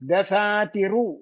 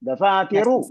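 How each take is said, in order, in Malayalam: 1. അവസാന സ്വരം പകുതി മാത്രം, നേരിയതായി ഉച്ചരിക്കുന്നു. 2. അവസാന സ്വരം വ്യക്തമായും പൂർണ്ണമായും ഉച്ചരിക്കുന്നു. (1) "പകുതി പറഞ്ഞിട്ടുള്ള വേറെ നിയമമാണ്" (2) "അവസാനത്തെ അക്ഷരം പറയാന്ന് പറഞ്ഞാൽ"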